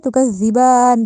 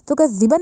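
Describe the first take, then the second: First: The final 'a' vowel is drawn out long. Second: The final 'a' vowel is short. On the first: The speaker calls it right. "खड़ी जबर आ रही है तो इसको लंबा करेंगे" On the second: The speaker calls it wrong. "नहीं कहा जाएगा"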